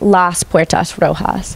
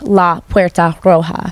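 First: Each word-final s is clearly pronounced. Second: Each word-final s is weakened, nearly dropped. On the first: "in a non-aspirated variety of Spanish" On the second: "they would weaken it"

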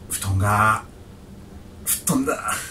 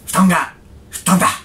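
First: It is said in a sad, sorrowful tone. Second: It is said in a joyful, happy tone. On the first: "はい。" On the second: "喜怒哀楽でちょっとね、喜で。"

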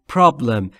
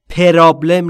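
First: No vowel is added between p and r. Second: An extra vowel is added between p and r. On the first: The speaker calls it right. "بین پی و آر صدایی وجود نداره" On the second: The speaker calls it wrong. "پرابلم نیست"

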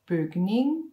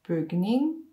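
The two takes are said the same way.

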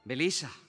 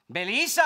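First: The name is said softly. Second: The name is said loudly.

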